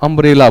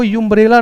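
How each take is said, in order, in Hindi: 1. शब्द 'uh' ध्वनि से शुरू होता है। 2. शब्द 'yoo' ध्वनि से शुरू होता है। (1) "अम्ब्रेला बोलते हैं" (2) "आप इसको युम्ब्रेला नहीं बोलते हैं"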